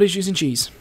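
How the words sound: It is said in a squeaky mouse-like voice.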